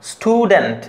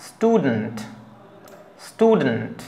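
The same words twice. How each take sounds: First: স্টুডেন্ট with t wrongly said like ঠ; overdone aspirated t after s. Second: স্টুডেন্ট with a plain t, no puff; crisp unaspirated t after s. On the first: Teacher showing the wrong way to say স্টুডেন্ট. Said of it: "এরকম বলা যাবে না". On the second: Teacher showing the right way to say স্টুডেন্ট. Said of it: "যেমন এটা হবে". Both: Shown as a demonstration.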